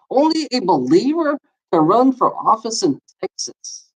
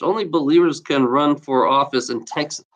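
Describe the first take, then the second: First: A long, disbelieving "Only a believer" that falls away; stress on Only, incredulous. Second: Said in the usual way. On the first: Real, not acted. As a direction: hit Only like you can't believe it. Repeats the law in disbelief.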